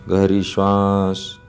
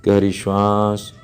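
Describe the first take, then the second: No difference in how they are said.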